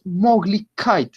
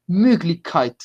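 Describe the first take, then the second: First: Möglichkeit said with plain O, "MOG-lich-kite"; without umlaut. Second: Möglichkeit with rounded "ö"; with umlaut. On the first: Teacher shows what not to say, plain O in Möglichkeit. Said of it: "Acá no decimos Möglichkeit". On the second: Teacher gives the German form, rounded ö in Möglichkeit. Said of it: "sino que decimos Möglichkeit". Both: Shown as a demonstration.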